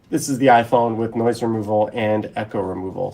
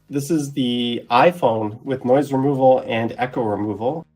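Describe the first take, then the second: First: Background noise and room echo are audible. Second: Background noise and room echo are removed. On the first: The speaker calls it wrong. "If I turn those off" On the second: The speaker calls it right.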